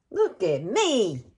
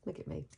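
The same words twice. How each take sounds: First: Louder, slow and silly; goofy slowed "Look at me"; playful slow drawn-out. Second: Said in the usual way. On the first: Real, not acted. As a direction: stretch it out for fun. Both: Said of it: "I hope y'all don't think I'm crazy".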